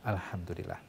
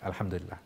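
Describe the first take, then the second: First: It is said slowly and earnestly, with deep feeling. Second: It is said quickly and offhandedly, without feeling. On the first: The speaker truly feels gratitude in the words. The speaker calls it right. "Tapi dengan penghayatan" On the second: The words are said without thinking about their meaning. The speaker calls it wrong. "kita mengucapkan dengan selewat aja"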